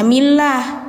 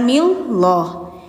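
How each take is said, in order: First: The L is light, with a clear a vowel. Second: The L is heavy, with a darker o vowel. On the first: The speaker calls it right. "bacanya millah" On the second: The speaker calls it wrong. "bukan milloh"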